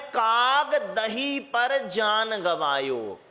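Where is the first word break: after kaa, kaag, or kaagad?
after kaag. The break comes after kaag, before dahi.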